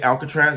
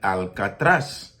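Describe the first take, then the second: First: It is said with an American English pronunciation. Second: It is said with a Spanish pronunciation.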